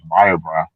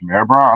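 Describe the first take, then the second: First: The first word sounds like 'Meyer'. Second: The first word sounds like 'mayor'. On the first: The speaker calls it wrong. "I thought it was" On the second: The speaker calls it right. "It's pronounced"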